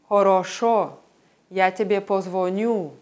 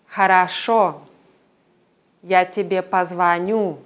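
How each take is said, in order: First: Unstressed o vowels sound like o. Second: Unstressed o vowels sound like a. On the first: "Die Aussprache vom Norden" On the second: "Die Moskauer Aussprache"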